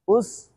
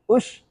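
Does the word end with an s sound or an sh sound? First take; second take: s; sh. First: The word ends with a plain s sound. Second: The word ends with an sh sound. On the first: The speaker calls it right. "Hamza सीन पेश उस" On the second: The speaker calls it wrong. "उश पढ़ लेते बाज लोग"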